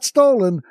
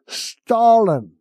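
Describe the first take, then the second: First: The first vowel sounds like 'oh', as in stolen. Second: The first vowel sounds like 'ah', as in Stalin. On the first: "Not stolen" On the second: "he pronounces it the way he misspells it. Stalin"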